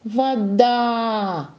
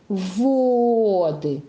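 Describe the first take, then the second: First: Вода called out with a long final а; drawn-out во-ДААА, as if calling it; calling, stress on second syllable. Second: Воды with a long, held first о; drawn-out ВООО-ды, first syllable stressed. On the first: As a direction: call to вода, stretching the stressed да. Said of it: "позовём её". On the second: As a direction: stretch the о in воды, then drop lightly onto ды. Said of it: "чтобы на первую гласную падало ударение". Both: Shown as a demonstration.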